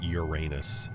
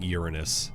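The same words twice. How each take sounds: First: It is said the way that sounds like butt. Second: It is said the standard, non-joke way. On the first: This makes the joke. The speaker calls it wrong. "not calling it Uranus" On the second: This avoids the joke. The speaker calls it right. "I'm saying Uranus"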